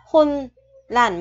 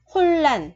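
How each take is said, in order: First: "hôn lành" split in two, with n kept before l; wrong pronunciation demo. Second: "hôn lành" run together with a long double l; correct assimilated pronunciation. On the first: Teacher shows learners what not to say, unassimilated n in "hôn lành". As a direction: say "hôn", break, then "lành", keeping the n. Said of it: "Chứ không phải là hôn lành". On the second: Teacher corrects to the Korean rule, joined double-l "hôn lành". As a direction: glide through "hôn lành" as hol-lan, n turned to l. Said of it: "mà là hôn lành". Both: Shown as a demonstration.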